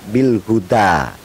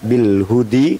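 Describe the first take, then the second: First: The word ends in an a vowel. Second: The word ends in an i vowel. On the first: The speaker calls it right. "dibaca bil huda tetap" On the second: The speaker calls it wrong. "tidak bil hudi"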